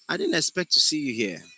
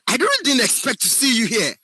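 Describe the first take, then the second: First: It is said in a calm, natural way. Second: It is said with exaggerated, raised energy.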